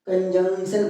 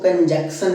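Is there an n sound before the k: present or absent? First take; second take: present; absent. First: An n sound comes before the k. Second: No n sound comes before the k. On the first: The speaker calls it right. "कंजंक्शन पढ़ते हैं इसको" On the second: The speaker calls it wrong. "कंजक्शन नहीं पढ़ते"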